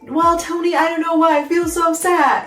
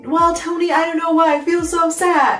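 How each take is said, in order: First: It is said cheerfully, with a smile. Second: It is said cheerfully, with a smile.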